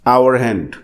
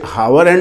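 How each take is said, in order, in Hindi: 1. 'Hour' की शुरुआत स्वर से होती है, 'h' साइलेंट है। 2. 'Hour' की शुरुआत में 'h' की साफ़ आवाज़ सुनाई देती है। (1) "एच को यहां पर हम साइलेंट करेंगे" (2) "उसे हावर हैंड नहीं कहेंगे"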